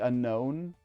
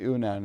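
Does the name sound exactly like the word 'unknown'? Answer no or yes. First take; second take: yes; no. First: It is said exactly like the word unknown. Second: It is said differently from the word unknown. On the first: This is the intended pronunciation. "I know it's supposed to be the unknown" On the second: This is the speaker's personal pronunciation. "but I pronounce it the Unown"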